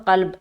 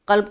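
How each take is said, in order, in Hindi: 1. यह शब्द 'b' व्यंजन पर एकदम रुक जाता है। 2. यह शब्द 'b' व्यंजन पर एकदम रुक जाता है।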